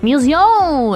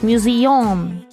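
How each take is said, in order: First: The word is said with a French-sounding pronunciation. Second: The word is said with an English pronunciation. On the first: The speaker calls it wrong. "it's like French. That's not good" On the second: The speaker calls it right. "it's museum"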